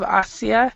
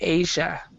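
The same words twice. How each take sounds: First: A separate 'ee' vowel is heard in the middle. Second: No separate 'ee' vowel is heard in the middle. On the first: The speaker calls it wrong. "instead of Asia" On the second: The speaker calls it right. "we don't even really say the I part. We say Asia"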